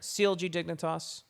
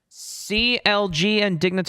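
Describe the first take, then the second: First: It is said at a quieter volume. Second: It is said very loudly.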